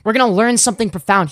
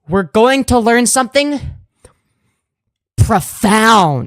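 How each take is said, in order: First: It is said straight through without a pause. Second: It is said with a little dramatic pause.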